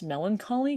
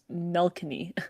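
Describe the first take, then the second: First: The word has four syllables with 'lan-co'. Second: The word is shortened to three syllables with 'ka'. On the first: The speaker calls it right. "I mispronounced melancholy" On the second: The speaker calls it wrong. "I thought it was pronounced melkany"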